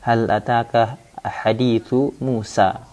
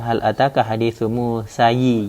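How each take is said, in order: First: Musa ends on a plain long 'a' sound. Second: Musa ends with an added 'i' vowel. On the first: The speaker calls it right. "Begitu juga dengan jar" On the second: The speaker calls it wrong. "Jadi bukan"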